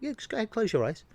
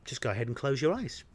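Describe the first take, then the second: First: It is said with more force. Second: It is said calmly, without extra force.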